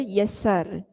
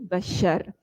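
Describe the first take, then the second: First: The name starts with Y and has an s sound. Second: The name starts with B and has an sh sound. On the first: The speaker calls it wrong. "Jadi dia baca Yassar" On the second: The speaker calls it right. "yang betul Muhammad bin Bashar"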